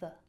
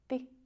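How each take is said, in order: First: The word has a weak schwa vowel. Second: The word has a shortened, clipped vowel. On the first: "our favorite schwa" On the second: "a shorter version"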